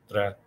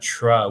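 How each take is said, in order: First: The tr is pronounced the Spanish way. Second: The tr is pronounced like English 'truck'. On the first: The speaker calls it right. "In Spanish, it's trabajar" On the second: The speaker calls it wrong. "is not tra. We don't use the truck like that sound, the T R English sound"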